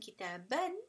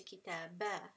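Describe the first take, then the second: First: The word ends with a short vowel and n. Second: The word ends with a lengthened vowel, no n. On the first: The speaker calls it wrong. "Instead of saying kitaban" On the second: The speaker calls it right. "you're going to lengthen it twice"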